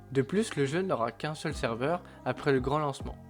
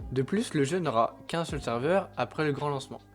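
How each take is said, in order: Both takes have the same delivery.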